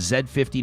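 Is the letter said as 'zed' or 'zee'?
zed. The letter is pronounced 'zed', Canadian style. This is the local Canadian way to name it. "I want to make sure it's okay if I call it the Z fifty"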